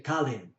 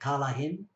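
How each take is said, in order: First: The word is shortened to two syllables. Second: The word is said with all three syllables. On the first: "That'll be pronounced as kalin" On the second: "The word for to leave is kalahin"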